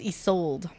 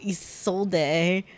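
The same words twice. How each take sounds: First: The final E is silent. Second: The final E is pronounced. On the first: The speaker calls it right. "so it's Isolde" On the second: The speaker calls it wrong. "I was pronouncing the E. I was pronouncing it Isolde"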